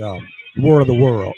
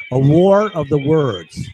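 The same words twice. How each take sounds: First: Said in the usual way. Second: War of the words, slow and deliberate; stressed correction. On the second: Shown as a demonstration.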